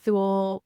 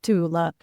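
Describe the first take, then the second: First: It is said with an anglicized pronunciation. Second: It is said with a German pronunciation. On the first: This is how the show says the name. The speaker calls it wrong. "we will all be using the Thule pronunciation" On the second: This is how the real name is said. The speaker calls it right. "the real thing should be pronounced Tula"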